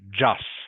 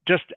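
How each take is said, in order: First: The final t sound is dropped. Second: The final t sound is clearly pronounced. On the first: The speaker calls it wrong. "you are still missing the last consonant sound" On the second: The speaker calls it right. "be careful you are pronouncing the final consonant"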